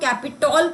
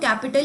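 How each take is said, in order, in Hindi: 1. अंतिम अक्षर 'tol' जैसा सुनाई देता है। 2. अंतिम अक्षर 'tal' जैसा सुनाई देता है। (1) "इसको शायद पढ़ने में हम कैपिटॉल पढ़ सकते हैं, पर नहीं" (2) "प्रोनाउंसिएशन तो कैपिटल ही हो सकती है"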